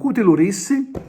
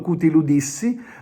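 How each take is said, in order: First: The consonant before -issi is an R sound. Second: The consonant before -issi is a D sound. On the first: This is how the local dialect says it. "noi almeno a Trapani diciamo cutilurissi" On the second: This is the form found in writing. "trovate scritto cutiludissi"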